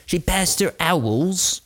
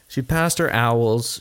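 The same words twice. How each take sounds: First: Higher and slow, a put-on posh girl voice; lightly mock her like a Hogwarts pupil; slow, high teasing voice; mock schoolgirl. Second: Said in the usual way. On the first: Hogwarts joke about the teen.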